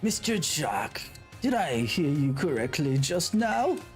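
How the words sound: It is said in an old man voice.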